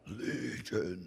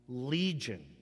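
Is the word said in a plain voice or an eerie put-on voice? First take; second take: eerie; plain. First: It is said in an eerie put-on voice. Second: It is said in a plain reading voice.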